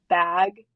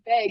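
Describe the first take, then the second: First: Bag is said in a general American way. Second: Bag is said with a Wisconsin accent.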